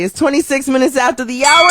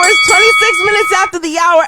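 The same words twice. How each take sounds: First: Said in the usual way. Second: Much higher, louder hype announcer voice; big radio-style time call. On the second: Acted. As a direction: boom it out like a radio host.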